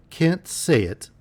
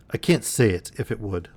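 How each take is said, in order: First: Slow, much higher disbelieving echo; incredulous. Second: Said in the usual way. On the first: Acted. Niece repeating her uncle's refusal in slow high disbelief. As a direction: stretch it out, stunned and high. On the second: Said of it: "suddenly turning".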